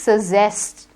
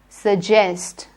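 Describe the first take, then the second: First: The middle consonant is a z sound. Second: The middle consonant is a j sound. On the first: The speaker calls it wrong. "Don't say suggest, z nahi hai, j hai" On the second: The speaker calls it right. "Again, the j sound, j for jug"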